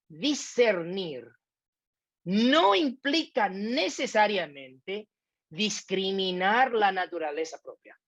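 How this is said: It is read in a dramatic, expressive way.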